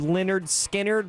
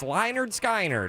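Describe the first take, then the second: First: The name is said the usual, familiar way. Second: The name is said in an altered, playful way.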